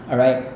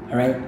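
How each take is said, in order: The two takes are said the same way.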